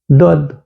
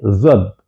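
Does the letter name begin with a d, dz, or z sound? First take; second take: d; z. First: The word begins with a plain d sound. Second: The word begins with a z sound. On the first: This is how it is taught today. The speaker calls it wrong. "А сегодня вообще буква «З» исчезла" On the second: This is how it was taught before. The speaker calls it right. "Когда мы учились, было З, Д, О, Д"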